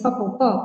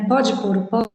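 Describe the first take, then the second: First: The words are squeezed together with syllables dropped. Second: Each word is pronounced separately and in full. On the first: "a gente fala assim" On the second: "E o que, que isso significa"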